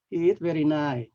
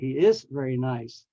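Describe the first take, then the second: First: The final consonant sounds are dropped. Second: The final consonant sounds are fully pronounced. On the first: The speaker calls it wrong. "don't say stuff like" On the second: The speaker calls it right. "with the, all the end sounds"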